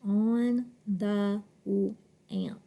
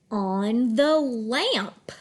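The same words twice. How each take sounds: First: Very slow, halting "On the lamp"; low, level "On the lamp" with gaps; sounded out. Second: Slow, connected "on the lamp"; lilting "on the lamp", rising then falling; smooth phrase reading. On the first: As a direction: decode "On the lamp" chunk by chunk. Teacher decodes phrase word by word. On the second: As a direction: stretch "on the lamp" into one flowing phrase. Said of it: "read smoothly in phrases". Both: Shown as a demonstration.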